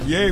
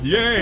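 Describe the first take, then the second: First: It ends with a rising, questioning tune. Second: It ends with a falling, confident tune.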